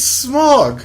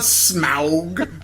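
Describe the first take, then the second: First: The name sounds exactly like the word 'smog'. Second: The name has a vowel unlike the word 'smog'. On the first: The speaker calls it right. "it's smog" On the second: The speaker calls it wrong. "not Smaug"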